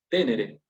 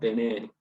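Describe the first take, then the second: First: The stress is on the first syllable. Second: The stress is on the second syllable. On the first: The verb would belong to the third conjugation. The speaker calls it wrong. "No es de la tercera, porque si no, se pronunciaría tenere" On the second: The verb belongs to the second conjugation. The speaker calls it right. "nos están indicando que tenemos que pronunciar tenere"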